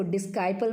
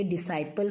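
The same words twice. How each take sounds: First: डिस्काइपल said wrongly as dis-kai-pal, with a hard k sound; wrong pronunciation. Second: डिसाइपल said di-sai-pal, with a silent c and no k sound; correct pronunciation. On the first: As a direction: say डिस्काइपल with the k, as the mistake to avoid. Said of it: "इसको डिस्काइपल मत पढ़ना". (ग़लत उच्चारण, डिस्काइपल में क बोलकर) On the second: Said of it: "ये डिसाइपल होता है". (सही उच्चारण, डिसाइपल बिना क के) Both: Shown as a demonstration.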